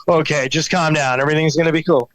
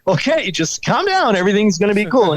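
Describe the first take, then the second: First: Said in the usual way. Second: TV echo of reassurance. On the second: Retold or imitated. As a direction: echo the calming words in a high TV voice. TV echoes his reassurance.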